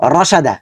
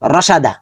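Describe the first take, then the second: No difference in how they are said.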